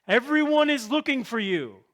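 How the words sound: It is said in a frustrated, exasperated way.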